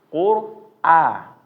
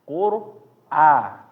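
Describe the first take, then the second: Both takes have the same delivery.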